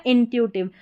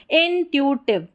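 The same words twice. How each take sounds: First: Said in the usual way. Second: intuitive split as in, tu, tiv; slower, in parts. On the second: Shown as a demonstration. Teacher models the word for practice, split up. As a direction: separate intuitive into its pieces.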